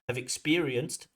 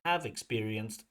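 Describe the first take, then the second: First: The stress falls on the word experienced. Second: The stress falls on the word have. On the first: The speaker calls it right. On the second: The speaker calls it wrong.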